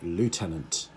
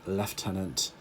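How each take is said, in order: First: It is said with the American pronunciation. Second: It is said with the British pronunciation. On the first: "in American English, uh, they call it lieutenant" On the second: "in British English, uh, we call it lieutenant"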